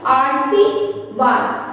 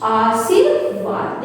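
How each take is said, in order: First: आरसीवाद drawn out slowly as the error; slow wrong form. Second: आशीर्वाद stretched out slowly and clearly; slow correct form. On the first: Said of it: "आरसीवाद नहीं होता". (आरसीवाद धीरे-धीरे, ग़लत उच्चारण) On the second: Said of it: "आशीर्वाद होता है". (आशीर्वाद धीरे और स्पष्ट) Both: Shown as a demonstration.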